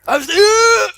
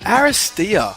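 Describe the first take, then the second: First: It is said loudly, almost shouted. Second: It is said quietly, at normal volume.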